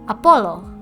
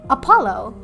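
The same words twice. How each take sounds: First: It is said with an Indonesian accent. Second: It is said with an English accent. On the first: "if I were to say it in an Indonesian accent" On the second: "That's how I would say it in English"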